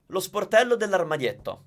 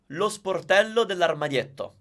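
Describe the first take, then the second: No difference in how they are said.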